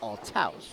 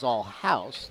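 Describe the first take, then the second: First: The T is sounded, sounding like 'Althaus'. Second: The T is silent, sounding like 'Allhouse'. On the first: "The English way is Althaus" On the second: "German way is Allhouse"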